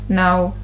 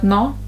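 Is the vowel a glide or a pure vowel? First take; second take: glide; pure vowel. First: The vowel glides, ending in a small oo. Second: The vowel is a single short pure sound. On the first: The speaker calls it right. "There's a small oo. No, there's a small oo sound" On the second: The speaker calls it wrong. "instead of no"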